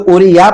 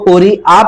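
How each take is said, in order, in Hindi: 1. बीच का व्यंजन य की आवाज़ में बोला जाता है। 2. बीच का व्यंजन हमज़ा की आवाज़ में बोला जाता है। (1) "बच्चे यहां पर भी बहुत गलती करते हैं, इसको पूरी या पढ़ते हैं" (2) "इसको पूरी आ पढ़ेंगे"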